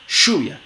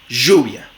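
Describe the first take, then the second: First: The first sound is a voiceless sh. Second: The first sound is a buzzing zh. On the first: "como fricativa postalveolar sorda" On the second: "Como fricativa postalveolar sonora"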